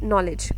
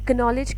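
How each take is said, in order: First: The initial k sound is silent. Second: The initial k sound is pronounced. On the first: The speaker calls it right. "We read it नॉलेज" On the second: The speaker calls it wrong. "ये कनॉलेज क्यों नहीं है"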